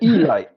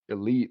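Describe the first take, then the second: First: The word ends with a 'light' sound. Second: The word ends with a 'leet' sound. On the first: "weird pronunciations" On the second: "they're not building an elite"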